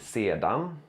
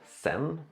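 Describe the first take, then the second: First: The word is said in its full form. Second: The word is said in a shortened form. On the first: "Sen har vi sedan" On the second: "som ofta blir sen"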